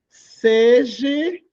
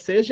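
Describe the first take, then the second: First: The word ends with an 'ee' sound. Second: The word ends with an 'ah' sound. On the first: The speaker calls it wrong. "Tem gente que diz assim" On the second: The speaker calls it right. "Que é seja"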